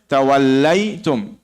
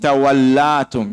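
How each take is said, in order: First: An 'ay' sound comes before 'tum'. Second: A plain 'a' sound comes before 'tum'. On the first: The speaker calls it right. "You say tawallaytum" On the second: The speaker calls it wrong. "you're not going to say tawallatum"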